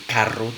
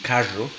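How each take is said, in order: First: The double r is a rolled trill. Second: The double r is a buzzing retroflex fricative. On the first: "en lugar de decir carro" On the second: "una fricativa eh, retrofleja sonora"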